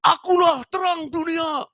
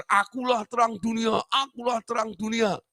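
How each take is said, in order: First: Very high, slow, loud proclaiming cry; patient's proclamation. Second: High, lightly shouted boast; patient boasting. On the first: A mental patient on a table proclaims to his friends, high slow shout. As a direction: call it out like a madman on a table. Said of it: "Dia bilang begini". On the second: The patient shows off to other patients, high boast. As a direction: show off like the patient. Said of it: "dia pamer". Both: Retold or imitated.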